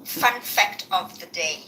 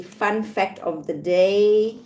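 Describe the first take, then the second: First: Slow and falling this time; announcing fun fact. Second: Slow, rising announcement; announcing fun fact. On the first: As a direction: say it slowly, settle the tune down. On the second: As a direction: draw out the title slowly, lift at the end. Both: Shown as a demonstration. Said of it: "I said, let me see".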